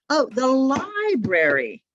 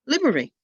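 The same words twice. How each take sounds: First: The library said slowly, much higher, each beat clear; modelled library. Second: Library said as two beats, higher and louder; student's clipped library. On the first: Shown as a demonstration. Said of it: "teacher modelling the word". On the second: Retold or imitated. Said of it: "student repeating the word".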